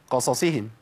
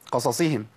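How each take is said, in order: First: The two s sounds blur almost into one. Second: The two s sounds blur almost into one.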